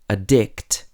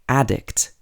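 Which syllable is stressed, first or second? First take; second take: second; first. First: The stress is on the second syllable. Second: The stress is on the first syllable. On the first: It is used as a verb. "is a verb ... the verb has the stress on the second syllable" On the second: It is used as a noun. "is a noun ... The noun has the stress at the beginning of the word"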